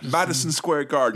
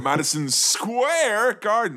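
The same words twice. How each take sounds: First: All three words carry equal stress. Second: One word is stressed more than the others. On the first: The speaker calls it right. "it's all equal importance" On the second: The speaker calls it wrong. "a particular phrase that has emphasis on one word"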